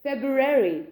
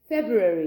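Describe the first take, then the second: First: It is said in an American accent. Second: It is said in a British accent. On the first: "US वाले लोग बोलेंगे तो वो बोलेंगे फेब्रुअरी, because वो आर पे बहुत फोकस करते हैं" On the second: "that's in the UK"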